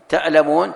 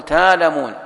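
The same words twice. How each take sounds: First: تألمون with a clear, loud glottal stop; with hamza. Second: تالمون with a long open a, no hamza; hamza eased. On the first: Teacher giving the written form before the easing. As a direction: say تألمون hitting the hamza hard. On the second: Teacher showing the eased reading to students. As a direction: say تالمون gliding, with no glottal stop. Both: Shown as a demonstration. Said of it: "تقول".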